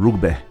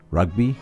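First: It is said in a northern English accent. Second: It is said in an Australian accent. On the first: "by English northerners" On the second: "if you're Australian"

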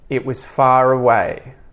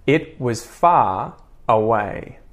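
First: The words run together with a linking R. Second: Each word is said separately, without a linking R. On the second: "first unlinked or unconnected"

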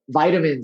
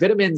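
First: It is said in an American way. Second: It is said in a non-American way.

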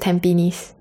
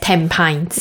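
First: The ending does not sound like the word pines. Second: The ending sounds like the English word pines. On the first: This is the real local name, which comes from Malay. The speaker calls it right. "but it's Tampines" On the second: This is how an English reader would guess it. The speaker calls it wrong. "the any English-speaking person would read it as Tampines"

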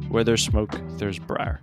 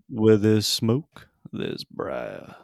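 First: It is said in a lame, flat way. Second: It is said in a cooler, dramatic way.

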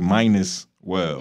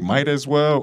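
First: The first words blend into 'minus well'. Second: Each word is said clearly, as 'might as well'. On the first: The speaker calls it wrong. "or do you say minus well? Never say minus" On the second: The speaker calls it right. "Do you say might as well"

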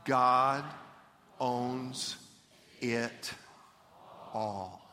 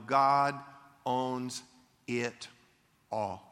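First: It is spoken slowly and deliberately. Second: It is spoken at a normal pace.

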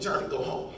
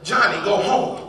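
First: It is said quietly, in a small voice. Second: It is said louder than a small voice.

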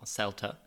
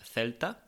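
First: It is said with an English accent. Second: It is said with a Spanish accent.

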